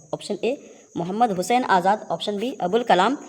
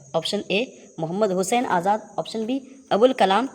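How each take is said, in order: The two takes are said the same way.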